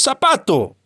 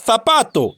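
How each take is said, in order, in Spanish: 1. La primera consonante se pronuncia como un sonido s. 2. La primera consonante es el sonido distinto de la z española. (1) "que decimos zapato" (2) "Nosotros no pronunciamos zapato"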